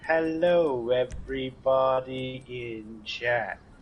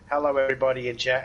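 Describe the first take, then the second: First: It is said slowly, like a bot. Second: It is said at a normal speed.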